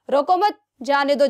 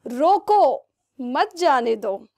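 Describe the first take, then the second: First: रोको मत run together, then a break before जाने दो; "रोको मत", pause, "जाने दो"; group मत with रोको, then release जाने दो separately; pause after मत. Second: Long drawn-out रोको, then a clear break before मत जाने दो; "रोको", pause, "मत जाने दो"; pause after रोको. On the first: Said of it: "comma को हटाया और मैंने क्या लगा दिया". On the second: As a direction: say रोको slowly as its own command, then मत जाने दो. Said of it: "अब मैंने लगा दिया कॉमा यहाँ पे". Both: Shown as a demonstration.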